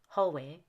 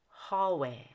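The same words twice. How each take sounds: First: The first vowel is not a full short O. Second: The first vowel is a full short back O. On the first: The speaker calls it wrong. "not hallway" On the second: The speaker calls it right. "hallway has a full short back O"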